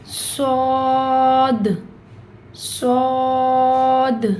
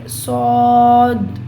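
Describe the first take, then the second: First: صاد drawn out with the voice turning back at the end; the right way: let the voice curl back on صاد; correct saad. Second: صاد cut off short and loud, not turned back; the wrong way: stopping the voice on صاد; wrong clipped saad. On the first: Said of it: "اس طریقے سے". (صاد صحیح، آواز واپس مڑتی ہوئی) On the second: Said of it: "اس طرح نہیں روکنی نہیں ہے". (صاد غلط طریقے سے روکی ہوئی آواز) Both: Shown as a demonstration.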